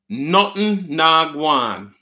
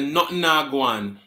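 First: "Nothing na gwan" drawn out very slowly, word by word; slow teaching repeat. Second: "Nothing na gwan" said a bit slowly, patois vowels; patois phrase. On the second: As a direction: say "Nothing na gwan" as a Jamaican reply. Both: Shown as a demonstration. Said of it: "and you say".

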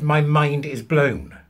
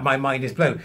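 First: "My mind is blown" said slowly, each word weighted; slow emphatic quote. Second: Said in the usual way. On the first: Retold or imitated. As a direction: lean on "My" and drag out "blown". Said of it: "he actually said". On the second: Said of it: "He said".

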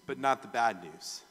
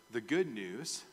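First: Not hit hard with a falling tune; stress on not. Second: Good lifted with a rising tune; stress on good. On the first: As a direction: punch the word not. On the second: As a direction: lean on the word good. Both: Shown as a demonstration.

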